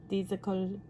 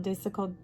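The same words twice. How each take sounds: First: Disical as DEE-zih-kul; long-ee pronunciation. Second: Disical with a short "dis"; short-i pronunciation. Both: Shown as a demonstration. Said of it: "Does it sound better?".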